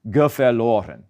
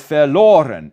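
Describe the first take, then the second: First: Geverloren with an added unstressed "ge" in front; geverloren, extra "ge" syllable before verLOren; wrong ge- form. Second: Said in the usual way. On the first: Shown as a demonstration. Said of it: "and not geverloren". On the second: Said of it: "It is not stressed on the first syllable".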